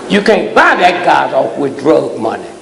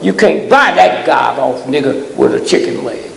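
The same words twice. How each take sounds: First: Said in the usual way. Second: Shouted, with a punch on buy; the first take shouted, the retake calmer; shouted warning. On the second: Real, not acted. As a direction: hurl it at them as a warning. Preacher hammering at the crowd.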